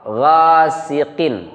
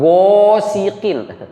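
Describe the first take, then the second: First: The first vowel falls between o and a. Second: The first vowel is a clear o sound. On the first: The speaker calls it right. "tapi gha ... antara o dengan a" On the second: The speaker calls it wrong. "bukan gosiqin"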